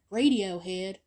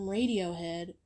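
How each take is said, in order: First: the band's name said louder, the last vowel pinched toward "hid"; odd pronunciation. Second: Said in the usual way. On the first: Real, not acted. Vlogger repeating the band's name, said oddly, louder, with the ending like "hid". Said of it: "I don't know why I said it like that".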